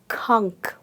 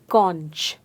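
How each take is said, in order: First: The word ends in a 'k' sound. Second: The word does not end in a 'k' sound. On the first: The speaker calls it right. "it is pronounced as kunk" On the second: The speaker calls it wrong. "I most often see people pronouncing it as conch"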